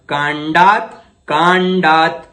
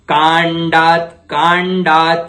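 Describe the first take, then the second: No difference in how they are said.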